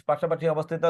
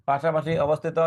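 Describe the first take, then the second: Both takes have the same delivery.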